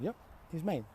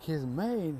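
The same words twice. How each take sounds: First: Higher, softer matter-of-fact answer; acted casual affirmation; breezy confirmation. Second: Incredulous echoing question; acted surprised query; mock disbelief. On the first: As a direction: confirm it lightly. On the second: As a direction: repeat it as a puzzled crowd. Everybody questions the maid claim.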